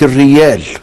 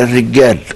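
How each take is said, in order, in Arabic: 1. الحرف الأوسط صوت y. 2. الحرف الأوسط صوت من نوع j.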